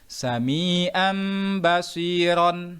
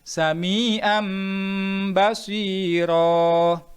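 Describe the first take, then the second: First: It ends with a final n sound. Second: It ends on a lengthened vowel without n.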